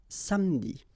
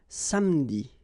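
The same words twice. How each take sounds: The two takes are said the same way.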